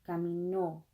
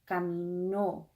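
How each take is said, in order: Both takes have the same delivery.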